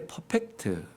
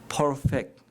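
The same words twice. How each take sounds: First: It is said with a Korean accent. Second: It is said with an English accent.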